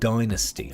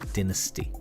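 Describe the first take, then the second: First: The word is said the American way. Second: The word is said the British way. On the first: This is how the show's own country says it. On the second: This is how the speaker's own country says it.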